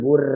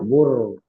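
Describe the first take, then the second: First: The r is light and thin. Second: The r is heavy and thick. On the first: The speaker calls it wrong. "bukan bur" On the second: The speaker calls it right. "tapi yarzuku atau bur burhanun"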